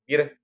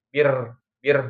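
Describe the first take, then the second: First: The final r has a light, brief trill. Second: The final r is trilled long and heavily. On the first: The speaker calls it right. "Bir cukup ya" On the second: The speaker calls it wrong. "jangan bir bir gitu ya"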